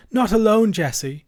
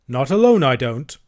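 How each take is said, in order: First: High, loud, urgent insistence; alarmed wife. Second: Raised first words, dropping to usual; firm refusal. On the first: Vicar's wife refusing to let him go, alarmed. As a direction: insist anxiously, then call the maid. Frightened wife orders maid. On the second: Servant Andrew refusing to go alone, firm. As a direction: refuse firmly. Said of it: "said Andrew in low, firm tones". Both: A narrator's reading.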